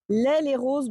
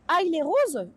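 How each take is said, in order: First: The first syllable sounds like 'eh'. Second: The first syllable sounds like 'eye'. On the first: The speaker calls it wrong. "Je les prononce comme j'ai envie" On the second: The speaker calls it right. "Ça se prononce aïe, pas eh"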